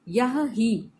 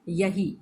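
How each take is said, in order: First: The two words are said separately, h sounded. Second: The words merge into one, h dropped.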